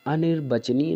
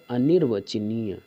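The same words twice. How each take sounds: First: अनिर्वचनीय as aa-nir-bachaniya, higher; wrong form. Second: अनिर्वचनीय slow, a-nir-vachaniya; correct form. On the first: Teacher citing the error, high अनिर्वचनीय with b. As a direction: open अनिर्वचनीय on long aa and use b. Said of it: "अनिर्वचनीय नहीं होता". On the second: Teacher giving the right word, slow अनिर्वचनीय with v. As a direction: draw out अनिर्वचनीय with a clear v. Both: Shown as a demonstration.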